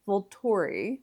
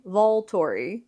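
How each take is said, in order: First: "Volturi" with a reduced "vuhl" first syllable; trying a pronunciation. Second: Slow "Volturi" with a full "vahl" first syllable; careful second attempt. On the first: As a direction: try "Volturi" as "vuhl-TOR-ee", tentatively. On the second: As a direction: sound out "Volturi" as "VAHL-TOR-ee", drawn out. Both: Shown as a demonstration. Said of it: "I still can't say it right".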